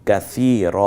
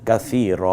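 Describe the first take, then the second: No difference in how they are said.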